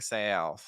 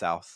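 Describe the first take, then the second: First: The vowel has a southern twang. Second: The vowel is plain, without a twang. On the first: "where we get kind of that twang" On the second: "versus just south"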